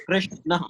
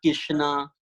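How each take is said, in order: First: Krishna with the r sounded right after K; correct Sanskrit pronunciation. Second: Kishna, with the r left out after K; dropped R. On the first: Teacher giving the Sanskrit form, Krishna with sounded r. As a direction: articulate Krishna carefully, r and sh both distinct. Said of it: "the correct pronunciation is Krishna". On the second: Teacher showing the wrong form, Kishna without r. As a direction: say Kishna slowly, no r in it. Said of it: "it's not Kishna". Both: Shown as a demonstration.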